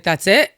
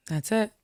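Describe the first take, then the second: First: Disbelieving question. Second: Softer repeat. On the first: Asking if that's all. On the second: The short answer repeated, softer. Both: Retold or imitated.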